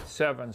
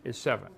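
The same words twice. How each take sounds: First: Said in the usual way. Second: Seven lowered and landed with a firm fall; stress on seven. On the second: Shown as a demonstration. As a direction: drive home the answer seven, falling firmly. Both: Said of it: "Now pay attention".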